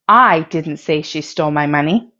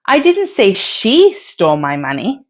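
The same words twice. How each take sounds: First: The word "I" carries the main stress. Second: The word "she" carries the main stress. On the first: Someone else said it. "If you stress the word I" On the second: Someone else stole the money. "If you stress she"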